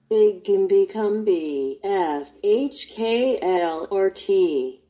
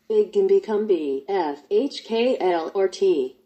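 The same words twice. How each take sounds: First: It is said slowly. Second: It is said fast.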